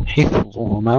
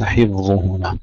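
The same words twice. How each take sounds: First: حفظهما with a clean hissing f; correct Arabic fa. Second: حفظهما with a voiced v-like ف. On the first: Teacher repeats it rightly, Arabic fa. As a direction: let air through a true ف in حفظهما. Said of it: "نجعلها أعجمية". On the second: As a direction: blur the ف of حفظهما into v. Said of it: "وليس حفظهما". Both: Shown as a demonstration.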